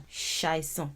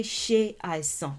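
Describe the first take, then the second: First: "ṣàìsàn" run together as one word; combined words. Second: "ṣe àìsàn" as two separate words; uncombined words. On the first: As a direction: drop the e, gliding from ṣ straight into "àìsàn". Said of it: "You can say that". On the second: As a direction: keep the vowel of "ṣe" before "àìsàn". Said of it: "you could say". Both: Shown as a demonstration.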